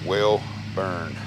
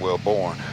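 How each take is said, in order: First: The second syllable sounds like 'burn'. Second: The second syllable sounds like 'born'. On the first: The speaker calls it right. "Welborn is how you pronounce it" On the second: The speaker calls it wrong. "instead of"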